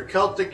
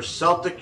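First: CELTIC said the Irish way, starting with K; hard-C Celtic. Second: CELTIC said like the team, starting with S; soft-C Celtic. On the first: Host meaning people from Ireland, hard-K Celtic. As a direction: say Celtic as "KEL-tik". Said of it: "you're from Ireland". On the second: Host joking about basketball players, soft-S Celtic. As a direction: say Celtic as "SEL-tik". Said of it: "you play basketball". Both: Shown as a demonstration.

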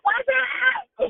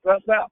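First: High squeal. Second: Said in the usual way. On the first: Real, not acted. Playful greeting going higher.

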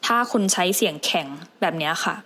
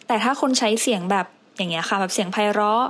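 First: Stiff, unfriendly delivery; demonstrating a stiff tone; hard, stiff voice. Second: Sweet, inviting delivery; demonstrating a friendly, melodious tone; pleasant, attractive voice. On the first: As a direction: say it in a hard, unwelcoming voice. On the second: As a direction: say it pleasantly to draw the listener in. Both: Shown as a demonstration.

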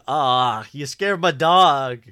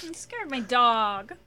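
First: High, loud, slow whine; imitating Jeffrey. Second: High, loud, slow whine; drawn-out loud high whine; imitating Jeffrey. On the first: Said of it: "His delivery on". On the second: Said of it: "It's so funny".

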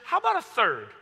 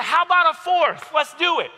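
First: Raised pitch, controlled threat; teacher's challenge. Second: High, loud, reckless dare; defiant comeback. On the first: Teacher offering another check mark to an arguing student, controlled challenge. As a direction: offer it as a pointed warning, without shouting. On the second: Student outbidding the teacher's check marks, loud defiant dare. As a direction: shout back, upping the stakes. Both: Retold or imitated.

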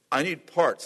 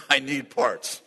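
First: Said in the usual way. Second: Laughing it out slowly; a laughing plea to the Lord. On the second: Real, not acted. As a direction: chuckle through the big ask.

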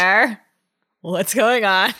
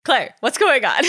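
First: Slow, drawn-out question; slowly asked. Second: Plain. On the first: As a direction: ask it slowly and carefully. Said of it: "Grace slowly asked". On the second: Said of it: "There we go". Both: Shown as a demonstration.

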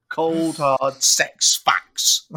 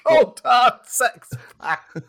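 First: Dramatic slow. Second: Slow booming announcer voice; dramatic announcer. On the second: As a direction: stretch every word out like a trailer. Repeats catchphrase high and slow. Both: Pretend.

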